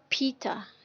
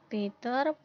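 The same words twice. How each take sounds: First: The p is said with a puff of air. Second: The p is said without a puff of air. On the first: The speaker calls it right. "padahal seharusnya disebutkan uh, Peter seperti itu" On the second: The speaker calls it wrong. "mereka tidak menyebutkan aspirasinya"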